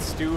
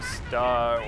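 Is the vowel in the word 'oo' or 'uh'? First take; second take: oo; uh. First: The word has a long 'oo' vowel. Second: The word has a short 'uh' vowel. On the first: The speaker calls it wrong. "I call it stew" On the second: The speaker calls it right. "I know it's probably stuh"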